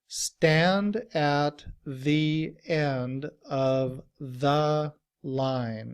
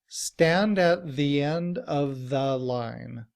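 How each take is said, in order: First: It is spoken very slowly. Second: It is spoken at a normal speed.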